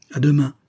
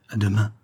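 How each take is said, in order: First: Higher, louder goodbye; Antoine's farewell. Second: Understated, subdued goodbye; Thérèse's farewell. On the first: Antoine parting from the prisoner, higher and firmer farewell. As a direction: lift the farewell up, a firm send-off. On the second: Thérèse parting from the prisoner, understated farewell. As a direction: echo the farewell in an unraised voice. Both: A narrator's reading.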